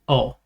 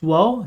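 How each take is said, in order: First: It is said as a plain o, without w. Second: It is said with a w sound before o. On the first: This is the usual everyday form. "you will pronounce it as o" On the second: This is the rare form, heard in songs. "it actually is pronounced wo sometimes"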